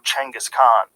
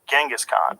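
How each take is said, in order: First: The name begins with a ch sound. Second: The name begins with a j sound. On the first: This is the original pronunciation. The speaker calls it right. "languages that didn't have Cheng" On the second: This is the form changed through translation. The speaker calls it wrong. "how it got fucked up over the years"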